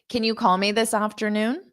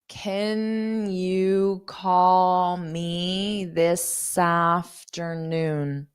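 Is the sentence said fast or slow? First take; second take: fast; slow. First: The sentence is spoken quickly. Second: The sentence is spoken slowly. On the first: "I'll say it fast, slow, and then fast" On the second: "I'll say it slow"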